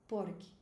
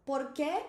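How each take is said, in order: First: "Porque" falling, POR stressed; answering stress. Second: "Por quê" rising on a stressed QUÊ; questioning stress. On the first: Teacher contrasts the answer form, first-syllable stress, falling. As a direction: drop the pitch after a stressed POR. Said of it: "a força tá aqui". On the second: Teacher shows the question form, stressed rising ending. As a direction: ask it with the end pushed up. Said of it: "se eu quero perguntar". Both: Shown as a demonstration.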